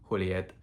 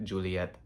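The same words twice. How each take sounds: First: Juliet said "Hu-li-ET"; Spanish J. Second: Juliet with an English "j" sound. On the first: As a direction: start Juliet with an H sound. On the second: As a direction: start Juliet with a voiced J. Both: Shown as a demonstration. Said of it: "people named like Juliet".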